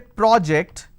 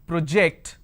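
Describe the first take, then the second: First: It is pronounced the way the noun is. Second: It is pronounced the way the verb is. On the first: It names a task or piece of work. "When I say project, it's a noun" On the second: It names an action of throwing or displaying. "When I say it's project, I am talking about a verb"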